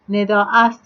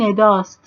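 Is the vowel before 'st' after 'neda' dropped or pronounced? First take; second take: pronounced; dropped. First: The vowel of 'ast' is fully pronounced. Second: The vowel is dropped, leaving only 'st'. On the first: "ast yerine" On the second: "elifini kaldırmış"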